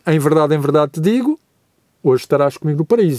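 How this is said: The pause comes before the word 'hoje'. Paradise will be reached on this very day. "a vírgula for colocada antes da palavra hoje"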